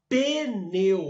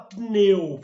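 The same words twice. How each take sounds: First: An extra e vowel sounds between p and n. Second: The p and n join with no vowel between. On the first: "fala pneu. A gente põe o E" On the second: "não fala pneu"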